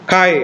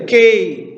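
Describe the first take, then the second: First: It is read in the Erasmian style. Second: It is read in the modern Greek style. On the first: It follows the reading of the text's original period. "Kalau itu adalah Erasmian ya kita akan membaca dengan" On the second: It follows present-day Greek reading. "kalau saudara akan baca dengan cara modern"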